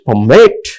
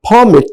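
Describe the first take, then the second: First: The stress is on the second syllable. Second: The stress is on the first syllable. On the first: It is used as a verb. "a second syllable is stress on each uh, you know word" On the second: It is used as a noun. "in first four sentences I highlighted only first syllable of the word"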